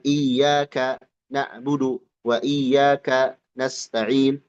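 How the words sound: There is a pause between iyaka and na'budu. The speaker calls it wrong. "Jangan ada jeda"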